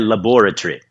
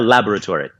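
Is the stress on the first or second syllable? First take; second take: second; first. First: The stress is on the second syllable. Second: The stress is on the first syllable. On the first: This is the British pronunciation. "mais comum britânica é laboratory... Com a sílaba tônica no bó" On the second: This is the American pronunciation. "a pronúncia mais padrão americana é laboratory, né? Com a tônica no lá e ori"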